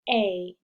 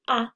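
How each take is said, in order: First: The letter is said as its long name. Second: The letter is said as a short vowel sound. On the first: This is the letter's name, used with a silent e. "to its name, A" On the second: This is the sound the letter usually makes. "from saying its sound, which is usually A"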